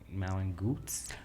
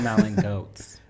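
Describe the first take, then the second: First: The second word has an oo vowel, like boots. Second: The second word has an oh vowel, like boats. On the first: The speaker calls it wrong. "I was saying its name so wrong for a long time" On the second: The speaker calls it right. "I think it's called Malin Goats"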